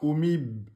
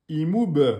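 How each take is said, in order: First: The final b stops without any echo. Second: The final b ends with a short echoing bounce. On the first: The speaker calls it wrong. "vous dites pas oumib" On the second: The speaker calls it right. "vous devez faire une, un rebond"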